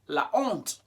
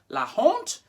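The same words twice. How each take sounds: First: Honte starts directly with its vowel, no h. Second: An h sound is breathed before honte. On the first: The speaker calls it right. "H is never pronounced in French" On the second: The speaker calls it wrong. "trying to bring in an H sound. It's forbidden"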